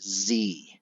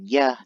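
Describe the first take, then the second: First: The consonant is pronounced like an English z. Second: The consonant is pronounced like an English y. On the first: "they say Z" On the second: "instead of saying yeah"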